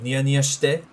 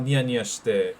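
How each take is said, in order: First: The pitch goes up. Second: The pitch does not go up. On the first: It orders someone to smirk. "that would be like a command. Like if you went up with it" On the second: It describes someone smirking. "Like what's up with you smirking?"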